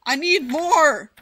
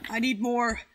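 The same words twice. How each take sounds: First: Loud, slow yell of need; demanding shout. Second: Said in the usual way. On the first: Real, not acted. Shouting at viewers for more.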